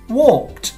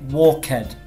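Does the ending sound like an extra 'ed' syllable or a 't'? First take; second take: t sound; ed syllable. First: The ending is a small 't' sound. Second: The ending is an extra 'ed' syllable. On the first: The speaker calls it right. "A really small t sound" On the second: The speaker calls it wrong. "So we don't say"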